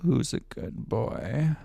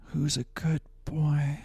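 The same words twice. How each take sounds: First: Slow, voiced dog praise; slow voiced take. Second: Slow breathy whisper to the dog. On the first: Second paid take, said slowly in full voice. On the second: Viewer paid for it, so he whispers slowly to the dog. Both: Shown as a demonstration. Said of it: "I can do it again".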